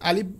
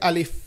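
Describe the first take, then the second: First: The word ends with a p sound. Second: The word ends with an f sound. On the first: The speaker calls it wrong. "শেষে প বলে" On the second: The speaker calls it right. "অর্থাৎ শেষে ফ"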